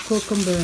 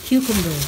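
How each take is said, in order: First: Cucumber with an o sound, koh-kumber; accented cucumber. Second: Cucumber with a clear kyoo, kyoo-kum-ber; corrected cucumber. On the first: Showing off groceries, Cucumber said koh-kum-ber. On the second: Showing groceries, correcting to kyoo-kum-ber. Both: Shown as a demonstration. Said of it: "I have an accent".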